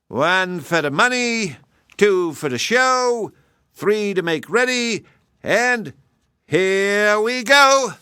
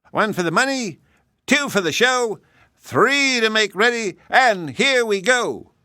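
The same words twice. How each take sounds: First: High, slower count ending in a long loud go; slow race count-off. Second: High, sing-song starting count; race count-off. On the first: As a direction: drag it out then launch. Hare counts final race. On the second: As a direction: call the start like a game. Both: Acted.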